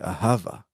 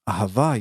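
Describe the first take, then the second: First: The stress is on the first syllable. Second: The stress is on the last syllable. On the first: The speaker calls it wrong. "you say ahava" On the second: The speaker calls it right. "instead of uh, um, ahava"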